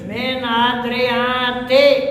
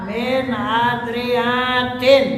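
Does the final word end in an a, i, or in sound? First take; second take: i; in. First: The word ends in a short i, no n. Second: The word ends in a short i plus n. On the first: It keeps the plural vowel but drops nunation. "yang kedua min adriati tanpa tanwin" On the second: It is inflected like a sound feminine plural. "i'rab jama' muannats salim, yakni dengan tanwin"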